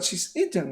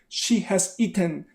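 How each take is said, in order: First: The word has is shortened onto she. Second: The word has is said in full. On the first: The speaker calls it right. "but she's eaten" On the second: The speaker calls it wrong. "People do not usually say she has eaten"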